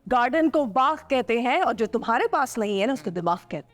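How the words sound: It is said loudly in an angry tone.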